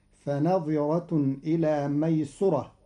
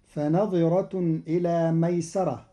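First: ميسرة said maysura; damma on sin. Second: ميسرة said maysara; fatha on sin. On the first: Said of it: "بضم السين". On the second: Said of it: "قرأ قالون كلمة ميسرة". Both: Shown as a demonstration.

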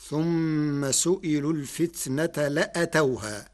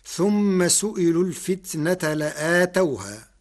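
First: لأتوها with short a after the hamza: la-atawhaa; alif dropped. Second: لآتوها with long aa after the hamza: la-aatawhaa; alif after hamza. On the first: Lecturer showing how Warsh reads it, short la-atawhā. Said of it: "بحذف الألف بعد الهمزة". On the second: Lecturer reciting the verse before Warsh's variant, long la-ātawhā. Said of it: "قرأ ورش كلمة لآتوها". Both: Shown as a demonstration.

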